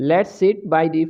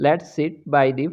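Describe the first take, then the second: No difference in how they are said.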